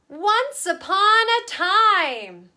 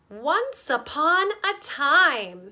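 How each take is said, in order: First: It is spoken louder, projected a bit. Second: It is spoken quietly, at close range. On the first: "Then they're going to step back" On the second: "we're going to do it on our small"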